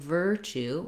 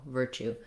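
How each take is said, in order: First: Said slower with a long, stressed first syllable. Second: Said quickly with short, light syllables. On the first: "rather than virtue" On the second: "you say your virtue part quickly"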